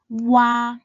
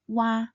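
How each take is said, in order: First: The syllable is said slowly, gliding between vowels. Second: The syllable is said quickly as one smooth sound. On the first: "start by sounding the U final first, and then translate into the R final" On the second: "when pronounced quickly"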